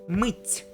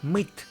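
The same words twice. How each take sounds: First: The final t sound is soft, palatalized. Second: The final t sound is hard, not palatalized. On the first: The speaker calls it right. "this sign softens the letter T" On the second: The speaker calls it wrong. "It's not мыть"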